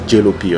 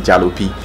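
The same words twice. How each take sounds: First: The word is said with a standard English accent. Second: The word is said with a Yoruba accent. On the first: "I think the real pronunciation is Jalopy or something" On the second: "A typical Yoruba man would say Jalopy"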